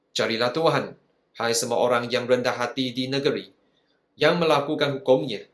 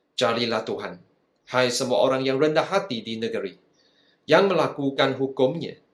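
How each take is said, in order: No difference in how they are said.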